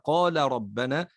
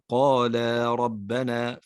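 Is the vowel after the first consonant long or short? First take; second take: short; long. First: The first vowel is short, not held. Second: The first vowel is long, held two beats. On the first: The speaker calls it wrong. "هذا لو لم نأتي به لتحولت الكلمة إلى قال ربنا" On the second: The speaker calls it right. "في حرف الألف بعد حرف اللام"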